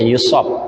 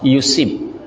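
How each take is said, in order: First: The second syllable has the vowel 'a'. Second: The second syllable has the vowel 'i'. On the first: The verb is passive: someone is afflicted. "dengan memfathahkan huruf shad, ya, dibaca yusab" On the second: The verb is active: he afflicts someone. "Ini shadnya dibaca kasrah"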